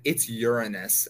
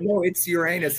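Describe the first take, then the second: First: "Uranus" said as YOOR-uh-nus, stress up front; corrected pronunciation of Uranus. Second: "Uranus" said as yer-AY-nus; usual pronunciation of Uranus. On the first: Someone correcting the speaker, "Uranus" stressed on the first syllable. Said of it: "somebody told me once they said". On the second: Insisting on the word to a corrector, "Uranus" stressed on the middle syllable. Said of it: "wrong emphasis on the wrong syllable". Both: Retold or imitated.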